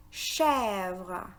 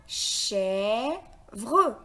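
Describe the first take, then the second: First: Said in the usual way. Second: "Chèvre" as a long "chè", pause, then "vre"; split into syllables. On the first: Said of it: "Le mot". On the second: Shown as a demonstration. Teacher counting syllables for learners, "Chèvre" split as chè-vre. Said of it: "composé de deux syllabes".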